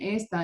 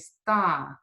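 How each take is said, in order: First: The stress is on the first syllable. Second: The stress is on the last syllable. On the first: The speaker calls it wrong. "if you're saying esta and esta, it means this" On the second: The speaker calls it right. "You want to say está, está, really emphasize the ending"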